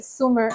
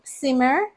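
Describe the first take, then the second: First: "simmer" said like summer, with an uh vowel; "simmer" slipped into sum-mer; mispronounced. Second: "simmer" with a clear short i as in sit; "simmer" said as sim-mer, not summer; said correctly. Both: Shown as a demonstration. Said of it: "I almost said simmer".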